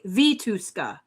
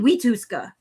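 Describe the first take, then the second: First: The name begins with a V sound. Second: The name begins with a W sound. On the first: "It's not even V?" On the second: "Why is it we?"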